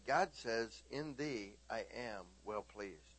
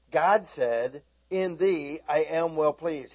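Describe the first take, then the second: First: Quiet, gentle retold blessing; soft telling. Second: Loud, emphatic retelling; insistent declaration. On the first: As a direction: say it softly, almost to yourself. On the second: Retold or imitated. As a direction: press it with full force.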